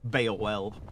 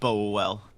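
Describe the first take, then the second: First: The name begins with a sound like 'Beowulf'. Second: The name begins with a sound like 'bowl'. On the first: The speaker calls it right. "Like Beowulf" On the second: The speaker calls it wrong. "Not Bowell"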